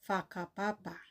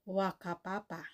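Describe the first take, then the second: First: The word begins with an F sound. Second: The word begins with a W sound. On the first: The speaker calls it right. "ang correct pronunciation doon ay Whakapapa" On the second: The speaker calls it wrong. "ang ibang mga Pilipino or Asians, ang tawag nila ay Wakapapa"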